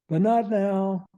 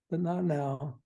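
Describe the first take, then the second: First: Slow, louder and higher, leaning on not; firm delay. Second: Said in the usual way. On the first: Shown as a demonstration. A parent putting off a child's bad decision, slow and firm. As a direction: put the delay firmly on not. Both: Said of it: "this little mantra that says".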